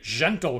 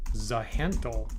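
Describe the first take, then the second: First: It sounds like the word 'gentle'. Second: The Z and H are pronounced separately. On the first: The speaker calls it wrong. "I don't like it sounding like gentle" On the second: The speaker calls it right. "the Z and the H are pronounced separately"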